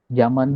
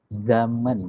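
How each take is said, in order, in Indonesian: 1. Kata ini diawali dengan bunyi j. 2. Kata ini diawali dengan bunyi z. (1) "ini saya bilang pakai J ya" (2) "Padahal yang benar zaman ya, pakai Z ya"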